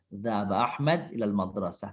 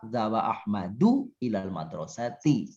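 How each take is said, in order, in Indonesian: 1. Akhiran kasusnya dihilangkan dan tidak dibunyikan. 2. Akhiran kasusnya dibaca lengkap. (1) "kalau membaca orang" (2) "Kalau dibaca lengkap"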